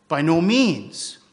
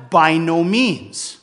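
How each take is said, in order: First: Said in the usual way. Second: Slow, firm and louder, stressing NO in "By no means"; emphatic. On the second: Retold or imitated. Preacher voicing Paul's emphatic denial, slow and firm. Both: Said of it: "because Paul is emphatic".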